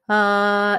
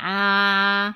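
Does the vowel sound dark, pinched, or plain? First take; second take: plain; pinched. First: A plain, purely oral vowel with no nasal colour. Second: A pinched, sharp, duck-like nasal vowel. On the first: "au lieu de «ah» uniquement oral" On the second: "pas non plus canard, c'est pas «ah», il est pas pointu"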